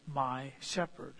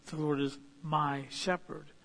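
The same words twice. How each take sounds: First: "my shepherd" slow, my pressed; quiet, slow, my stressed. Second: "The Lord is my shepherd" with my prominent; my given the weight; stress on my. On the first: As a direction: lean into "my", unhurried. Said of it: "an owner guide with". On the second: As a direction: lean on "my" as David's claim. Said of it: "David's saying". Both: Shown as a demonstration.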